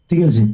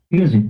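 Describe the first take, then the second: Both takes have the same delivery.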